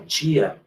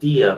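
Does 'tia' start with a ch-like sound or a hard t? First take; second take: ch-like; hard t. First: The word starts with a soft ch-like sound. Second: The word starts with a crisp, hard t sound. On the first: "vocês falam tia ... pronunciado de forma mais líquida, ch" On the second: "eu falo tia ... a gente fala de forma mais, vamos dizer assim, plosiva"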